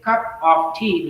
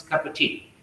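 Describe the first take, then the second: First: "cup of tea" with a full "of"; separated words. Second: "cup of tea" as "cuppa tea", softer; linked words. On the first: Teacher showing the form before linking, separated words. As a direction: keep cup, of and tea distinct. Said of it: "becomes cup of tea". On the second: Teacher showing what it becomes, linked words. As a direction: melt "of" into cup. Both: Shown as a demonstration.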